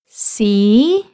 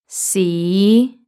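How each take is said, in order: First: The pitch rises from a high starting point. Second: The pitch rises from a low starting point. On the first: "in second tone" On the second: "then in fifth tone"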